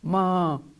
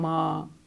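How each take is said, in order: First: The word is said in a drawn-out, pleading tone. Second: The same.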